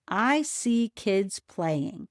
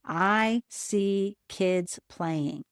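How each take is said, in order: First: Slow, word by word; slowly. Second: Slow, word by word; saying slowly. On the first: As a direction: say each word slowly and clearly. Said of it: "say the sentence slowly". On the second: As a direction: count each word off slowly. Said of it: "say the sentence slowly and put up one finger for each word". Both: Shown as a demonstration.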